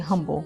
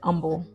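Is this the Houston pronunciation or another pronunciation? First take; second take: another; Houston. First: It is said a non-Houston way. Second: It is said the Houston way. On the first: The speaker calls it wrong. "We don't say humble" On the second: The speaker calls it right. "if you're from Houston, you know we say humble"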